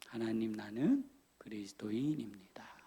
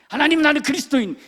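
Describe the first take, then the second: First: It is said slowly and calmly. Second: It is said hurriedly and emotionally.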